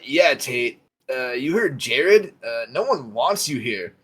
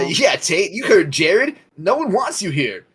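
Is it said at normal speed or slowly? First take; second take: slowly; normal speed. First: It is said slowly and condescendingly. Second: It is said at a normal speed.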